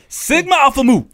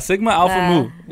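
First: It is said loudly and forcefully from the chest. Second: It is said in a plain, ordinary voice.

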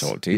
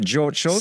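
First: The first name is said like German Georg. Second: The first name is said like English George. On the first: "He is properly pronounced as Georg" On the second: "he prefers to be called [name]"

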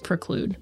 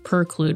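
First: The first syllable sounds like 'pre' here. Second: The first syllable sounds like 'per' instead. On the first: The speaker calls it right. "when it's preclude" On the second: The speaker calls it wrong. "sorry for saying preclude ... I switched the letters"

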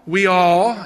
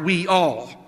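First: The two words run together in a Southern way. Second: The two words are said clearly apart. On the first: "I used to say it like that before I came north" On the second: "learned to take the words apart"

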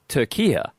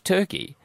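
First: The name ends with a 'kee-ah' sound. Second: The name ends with a 'kee' sound. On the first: The speaker calls it right. "Turkey is pronounced Turkia" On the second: The speaker calls it wrong. "it's not Turkey"

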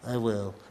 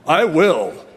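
First: It is said quietly and weakly. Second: It is said loudly and strongly.

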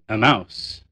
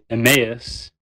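First: The ending sounds like the word 'mouse'. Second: The ending does not sound like 'mouse'. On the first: The speaker calls it wrong. "the other pronunciation sounds like you're saying a mouse" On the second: The speaker calls it right. "I prefer the former"

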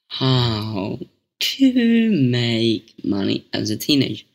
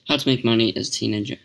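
First: It is said more slowly. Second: It is said at normal speed.

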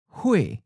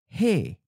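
First: The word ends in the vowel ue. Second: The word ends in the vowel e. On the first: This is the inland dialect form. "Pen Lai Kyung uses UE as a final" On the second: This is the coastal dialect form. "Pen Hai Kyung has a E"

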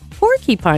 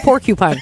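First: The first part sounds like 'porky'. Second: The first part sounds like 'porcu'. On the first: The speaker calls it wrong. "it's not porky" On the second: The speaker calls it right. "It's porcupine"

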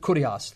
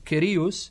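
First: The word is said in the Erasmian pronunciation. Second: The word is said in a non-Erasmian pronunciation.

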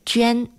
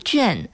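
First: The syllable is said with a high level tone. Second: The syllable is not said with a high level tone. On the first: The speaker calls it right. "正确读音是隽，第一声" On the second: The speaker calls it wrong. "不读隽"

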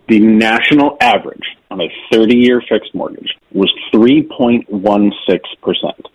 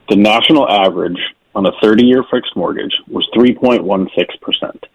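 First: It is said slowly and deliberately. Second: It is said at a normal pace.

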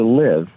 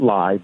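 First: The word rhymes with give. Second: The word rhymes with five. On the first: "we pronounce it live because we want you to live" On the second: "we could pronounce it live"

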